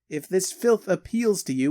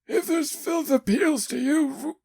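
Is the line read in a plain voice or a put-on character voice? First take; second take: plain; put-on. First: It is read in a plain, ordinary voice. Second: It is read in a put-on character voice. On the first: The speaker calls it wrong. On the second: The speaker calls it right.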